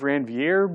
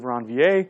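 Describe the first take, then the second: First: The name is said with a Texan English pronunciation. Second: The name is said with a French pronunciation. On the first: "if you're from Texas, I, I use the term" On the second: "the proper French pronunciation would be"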